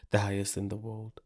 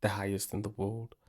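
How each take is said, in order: Both takes have the same delivery.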